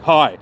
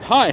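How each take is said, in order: First: The greeting sounds curt and aggressive. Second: The greeting sounds light and friendly. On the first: The sender seems angry at the reader. "in a very aggressive tone" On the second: The sender is being pleasant. "rather than just being like"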